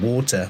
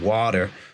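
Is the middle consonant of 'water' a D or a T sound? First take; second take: T; D. First: The middle consonant is a clear T sound. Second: The middle consonant is a soft D sound.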